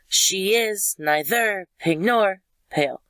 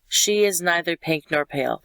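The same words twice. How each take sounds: First: The stress falls on the opposite syllables. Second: The stress falls on the usual syllables. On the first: The speaker calls it wrong. "What does not sound normal would be the opposite" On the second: The speaker calls it right. "That's normal"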